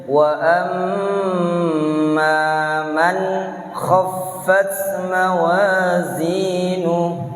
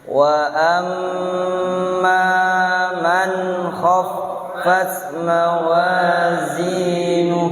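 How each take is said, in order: Both takes have the same delivery.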